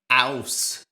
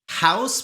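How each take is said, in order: First: The word begins without an H sound. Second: The word begins with an H sound.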